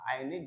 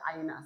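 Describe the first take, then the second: First: The word ends with an i vowel. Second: The word ends with an a vowel. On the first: The speaker calls it wrong. "Aini juga salah" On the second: The speaker calls it right. "selamanya dia dibaca aina saja"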